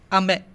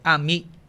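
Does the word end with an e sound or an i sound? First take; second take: e sound; i sound. First: The word ends with an e vowel sound. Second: The word ends with an i vowel sound. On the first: This is the mainland Japanese form. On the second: This is the Okinawan form, which lacks that vowel.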